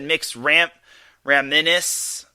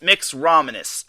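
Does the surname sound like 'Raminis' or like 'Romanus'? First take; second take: Raminis; Romanus. First: The surname is said like 'Ram Raminis'. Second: The surname is said to rhyme with 'ominous'. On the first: The speaker calls it wrong. "I think I said Mix Ram Raminis" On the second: The speaker calls it right. "so it's like ominous except Romanus"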